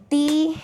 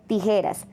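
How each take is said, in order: First: Tijeras broken into beats, higher; syllables split. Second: Said in the usual way. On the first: Shown as a demonstration. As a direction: tap out each syllable of Tijeras. (Tijeras separando sílabas, más agudo) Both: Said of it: "cada golpe de voz representa una sílaba".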